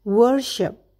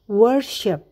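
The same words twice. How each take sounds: The two takes are said the same way.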